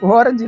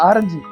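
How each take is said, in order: First: The word begins with an 'o' vowel. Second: The word begins with a long 'aa' vowel. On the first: The speaker calls it wrong. "ஓரஞ்சு இல்ல" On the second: The speaker calls it right.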